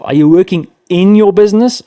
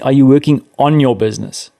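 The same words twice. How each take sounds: First: "in" punched louder and higher; stress on IN. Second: "on" leaned on, set against the alternative; stress on ON. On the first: Podcast guest posing a self-check question, stress on "in". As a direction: hit the word "in" hard in the question. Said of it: "a question you have to ask yourself". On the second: Podcast guest contrasting two ways of running a business, stress on "on". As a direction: land firmly on the word "on". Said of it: "not in it". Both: Shown as a demonstration.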